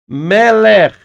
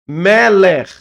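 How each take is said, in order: No difference in how they are said.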